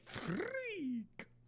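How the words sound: It is said with heavily exaggerated flair.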